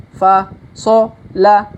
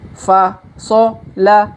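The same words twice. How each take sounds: No difference in how they are said.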